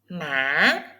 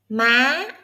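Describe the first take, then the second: First: The pitch dips down, then rises slowly. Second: The pitch rises quickly and sharply. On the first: "Hỏi is low. Hỏi is curved" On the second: "Sắc is fast. Sắc is straight"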